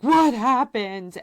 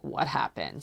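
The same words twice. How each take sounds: First: Alarmed demand. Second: Said in the usual way. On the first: Retold or imitated. Demanding news from the sitter.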